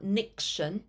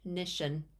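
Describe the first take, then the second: First: A k sound comes before the 'shun' ending. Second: No k sound comes before the 'shun' ending. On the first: The speaker calls it wrong. "Also not niction" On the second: The speaker calls it right. "it's just big fish. Nition"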